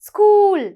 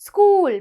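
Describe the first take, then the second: The two takes are said the same way.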